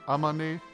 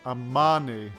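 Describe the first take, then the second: First: The stress is on the last syllable. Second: The stress is on the second syllable. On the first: The speaker calls it right. "With more emphasis on the ne than the a and the ma" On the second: The speaker calls it wrong. "you pronounce the second syllable"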